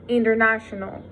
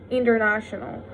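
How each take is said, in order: Both takes have the same delivery.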